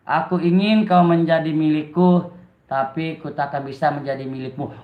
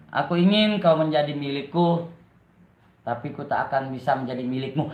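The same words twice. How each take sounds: First: Drawn-out poem reading, sinking lower at the close; slow, heartfelt recital. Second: Low, subdued poem reading; poetry recital. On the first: Streamer retries the poem for viewers, slow heartfelt recital. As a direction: recite it slowly with more feeling. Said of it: "Coba lagi dengan pelan-pelan dan diayati lagi". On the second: Streamer reads a love poem to live viewers, subdued recital. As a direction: recite softly, dropping lower on the second line. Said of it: "gue mau baca puisi". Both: Shown as a demonstration.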